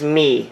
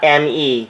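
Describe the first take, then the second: First: It is said as one word, like 'me'. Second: It is said as two letters, M and E. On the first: The speaker calls it right. "the official pronunciation is Me" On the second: The speaker calls it wrong. "not M E"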